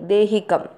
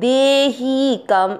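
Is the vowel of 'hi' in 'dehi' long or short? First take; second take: short; long. First: The vowel of 'hi' is kept short. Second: The vowel of 'hi' is drawn out long. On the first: The speaker calls it right. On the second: The speaker calls it wrong.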